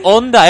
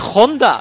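First: The first letter is silent, starting on the vowel. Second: The word starts with a harsh J-like sound. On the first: The speaker calls it wrong. "no se lee Honda" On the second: The speaker calls it right. "es Honda"

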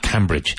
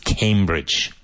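First: The first syllable sounds like 'cam'. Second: The first syllable sounds like 'came'. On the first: The speaker calls it wrong. "the river that flows through it is the River Cam. But it's not Cambridge" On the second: The speaker calls it right. "it's Cambridge"

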